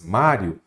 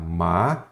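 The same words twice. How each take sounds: First: Said in the usual way. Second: "Mário" broken in two, a long pause after Má; split into syllables. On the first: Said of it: "Se você separar em sílabas". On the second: Shown as a demonstration. Teacher showing students how the word divides, "Mário" split into syllables. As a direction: say "Mário" syllable by syllable, low, stretching Má before rio. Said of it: "olha como vai ficar".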